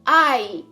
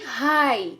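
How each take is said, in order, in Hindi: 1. यह सीधे स्वर ध्वनि से शुरू होता है। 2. यह एक सुनाई देने वाली h ध्वनि से शुरू होता है। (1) "इसको पढ़ेंगे आई" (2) "ना कि हाई"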